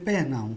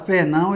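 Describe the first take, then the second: First: The name begins with a P sound. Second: The name begins with an F sound. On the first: "ele vai dizer Pernão" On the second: This is the original Portuguese name. "se o índio escutar Fernão"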